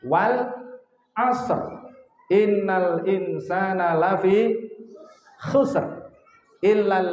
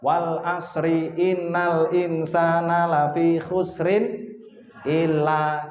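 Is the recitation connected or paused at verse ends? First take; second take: paused; connected. First: The reciter stops at the end of each verse. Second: The verses run together without stopping at verse ends. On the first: The speaker calls it right. "Yang lebih tepat bacanya begini" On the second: The speaker calls it wrong. "Itu sudah benar tapi kurang tepat"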